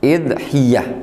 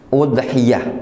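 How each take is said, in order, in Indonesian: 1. Kata itu diawali dengan vokal i. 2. Kata itu diawali dengan vokal u. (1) "dengan mengkasrah hamzah" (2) "dengan mendhammah hamzah"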